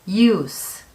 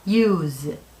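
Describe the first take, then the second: First: The word ends with an s sound. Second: The word ends with a z sound. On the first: It is the noun meaning a use or purpose. "s 발음" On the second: It is the verb meaning to use. "z의 발음"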